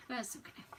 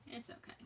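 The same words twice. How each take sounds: First: Said in the usual way. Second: Much softer, reassuring herself; soft self-reassurance. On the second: Real, not acted. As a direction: say it quietly, just for yourself.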